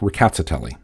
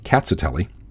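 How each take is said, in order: First: The word starts with a light, rolled R. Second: The word starts with a K sound, no R. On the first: "an R at the beginning, though it's very lightly pronounced as well as slightly rolled" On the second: "R should be treated as a silent letter"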